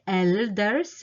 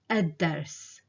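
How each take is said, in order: First: The l is heard before the d. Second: The l is dropped and the d doubled. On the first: The speaker calls it wrong. "I didn't say el-dars, it's kind of difficult" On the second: The speaker calls it right. "That way you sound more natural"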